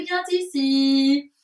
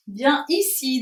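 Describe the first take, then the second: First: "bien ici" said with a liaison, an n sound linking bien to ici. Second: "Bien ici" said with no n sound between bien and ici, the two words kept apart; no liaison. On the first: Teacher to the children, sliding a liaison into "bien ici". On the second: Teacher to the children, correcting herself to say "Bien ici" without a liaison. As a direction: keep "Bien ici" unlinked, bien then ici. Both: Shown as a demonstration. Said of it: "Je ne sais pas pourquoi je fais une liaison".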